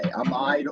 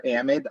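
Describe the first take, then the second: First: "Amide" as uh-MYDE, second syllable stressed; one accepted pronunciation. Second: "amide" as AM-id, first syllable stressed; other accepted pronunciation. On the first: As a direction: say "Amide" to rhyme with "tide". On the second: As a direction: say "amide" with short vowels, AM-id. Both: Shown as a demonstration. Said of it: "either one of them is fine".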